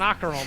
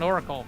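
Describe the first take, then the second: First: It is said like 'Ockerol', with an added k sound. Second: It is said like 'Oracle', without a k sound. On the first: The speaker calls it wrong. "I'm gonna say it deliberately wrong" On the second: The speaker calls it right. "proper pronunciation"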